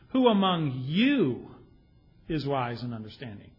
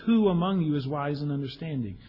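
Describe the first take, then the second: First: It is read sarcastically, stressing the word you. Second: It is read sincerely, without special stress. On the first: It implies that nobody listening is wise. The speaker calls it wrong. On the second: It is a genuine question inviting self-examination. The speaker calls it right.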